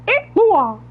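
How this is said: It is said in a squeaky cartoon-mouse voice.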